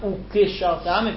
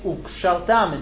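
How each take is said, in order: First: A short vowel is sounded between the k and sh. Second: No vowel is sounded between the k and sh. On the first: The speaker calls it wrong. "It's not ukishaltam" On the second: The speaker calls it right. "Same thing"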